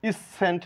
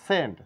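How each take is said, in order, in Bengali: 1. c উচ্চারিত হয়, এটি একটি অতিরিক্ত শব্দ। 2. c নীরব, এটি একেবারেই উচ্চারিত হয় না। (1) "ইস সেন্ট না" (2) "এটা সেন্ট, সি এর সাউন্ড নেই।"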